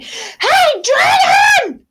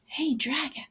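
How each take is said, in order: First: Very high, loud shout. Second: Very soft breathy whisper. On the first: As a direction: yell as loud as you can into his ear. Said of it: "she shouted as loud as she could". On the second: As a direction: check if he's asleep, barely a whisper. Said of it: "Elizabeth whispered very softly". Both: Acted.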